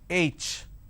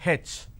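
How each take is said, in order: First: The letter is said the standard way. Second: The letter is said the southern Indian way. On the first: The speaker calls it right. "It's pronounced as H" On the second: The speaker calls it wrong. "in southern part of India, everybody pronounces this letter as H"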